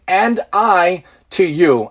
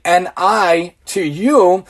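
First: Sounding out words. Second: "N I to you" drawn out letter by letter; sounding out slowly. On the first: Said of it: "we're basically saying". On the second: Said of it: "If you say it slowly". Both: Shown as a demonstration.

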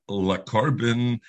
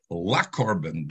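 First: Le carbon, le with a short neutral shva vowel, said slowly; slow Le carbon, short uh-sound on le. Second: La carbon, la with an open patach ah. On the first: Teacher reads Le carbon to students, le with a slow shva vowel. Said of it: "A lamed shva, meaning le carbon". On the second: Teacher reads la carbon to students, la with an open patach ah. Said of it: "He's saying it in a patach". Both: Shown as a demonstration.

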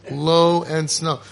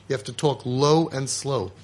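First: Drawn out, very slow and steady; low and slow. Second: Said in the usual way. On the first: Shown as a demonstration. Father showing parents how to speak, very slow. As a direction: stretch each word, calm and unhurried.

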